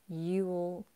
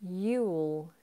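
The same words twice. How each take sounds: Both takes have the same delivery.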